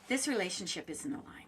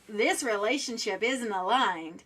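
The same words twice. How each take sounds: First: It is said in a soft, gentle tone. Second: It is said in a harsh, sharp tone. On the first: The message lands as caring without needing softening. The speaker calls it right. "That's soft. That's gentle" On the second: The message lands as hard and confronting. The speaker calls it wrong. "that's got a certain tone to it"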